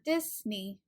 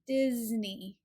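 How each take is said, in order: First: The middle consonant is a hissing S sound. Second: The middle consonant is a buzzing Z sound. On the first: The speaker calls it wrong. "not Disney" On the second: The speaker calls it right. "the letter S is actually pronounced as the Z sound"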